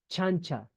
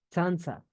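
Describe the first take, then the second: First: The word begins with a 'ch' sound. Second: The word begins with a 'ts' sound. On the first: This is the form after quechuization. "ha perdido la sutileza del sonido" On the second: This is the original Quichua form. "como sonido propio la pronunciación T Z"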